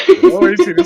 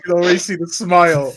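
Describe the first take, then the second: First: Shouted high and bright; loud high voice. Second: Said in the usual way. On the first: Acted. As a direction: yell it up high. Repeats louder, higher.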